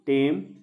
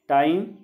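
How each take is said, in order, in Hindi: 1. इस शब्द का उच्चारण ग्रामीण बोली वाला है। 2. इस शब्द का उच्चारण मानक हिंदी वाला है।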